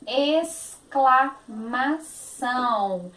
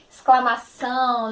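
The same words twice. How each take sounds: First: Exclamação syllable by syllable, ex as es; very slow Exclamação. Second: Said in the usual way. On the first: Shown as a demonstration. Teacher sounding out Exclamação for kids. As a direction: spell Exclamação out slowly. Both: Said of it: "o som do X, S".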